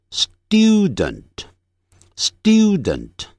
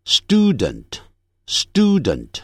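First: Student as "styoo-dent", y glide; slow British "student" with a dyoo sound; British pronunciation. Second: Student as "stoo-dent", no glide; slow American "student" with a plain oo; American pronunciation. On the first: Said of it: "英式的发音". (英式发音，student念成stiudent) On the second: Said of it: "美式". (美式发音，student不带一音) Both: Shown as a demonstration.

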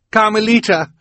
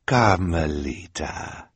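First: High, loud, desperate call; urgent cry. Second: Slow, syrupy coaxing call; sickeningly sweet. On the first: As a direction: cry out to stop her. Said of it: "Violet cried". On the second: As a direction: draw the name out with false sweetness. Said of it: "in a sickeningly sweet voice". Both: A narrator's reading.

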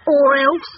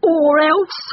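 First: Loud, raised challenge; challenging question. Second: Loud, high barked threat; fierce dog's challenge. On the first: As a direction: dare him with a rising question. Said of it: "asked Dog". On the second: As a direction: bark it like an angry dog. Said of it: "he barked". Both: A narrator's reading.

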